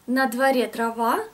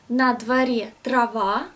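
First: The phrase is spoken at a faster pace. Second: The phrase is spoken at a slower pace.

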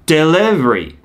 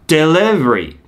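First: It has a smooth r and a vague 'dele' vowel. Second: It has a smooth r and a vague 'dele' vowel.

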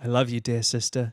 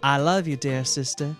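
First: The line is read in a flat monotone. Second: The line is read with varied, expressive pitch.

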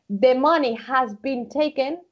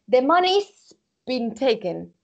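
First: The word has is said in full. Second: The word has is contracted onto money. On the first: "instead of saying" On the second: "Estas contracciones son más, son muy, muy, muy comunes"

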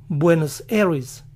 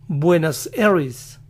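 Both takes have the same delivery.

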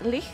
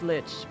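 First: The word is said with a German-like pronunciation. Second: The word is said with a usual English pronunciation. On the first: This is how the game says it. "it's much closer to the German pronunciation" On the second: This is how it is usually heard. "I've always heard it as Lich before"

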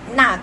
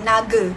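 First: The middle consonant sounds like a k. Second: The middle consonant is a voiced hard g. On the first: The speaker calls it right. "G ni kita akan tukar huruf K" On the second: The speaker calls it wrong. "Jangan baca naga. Salah kan?"

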